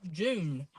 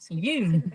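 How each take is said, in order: First: The name begins with a J sound. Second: The name begins with a Y sound. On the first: The speaker calls it wrong. "it's not June" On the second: The speaker calls it right. "It makes the Y sound"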